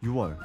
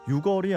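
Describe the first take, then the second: First: The first syllable has no k sound. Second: The first syllable ends with a k sound. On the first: The speaker calls it right. "어떤 소리를 빼는" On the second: The speaker calls it wrong. "숫자를 있는 그대로 읽지 않는"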